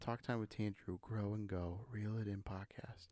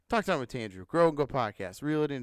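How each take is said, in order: First: It is said softly. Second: It is said loudly.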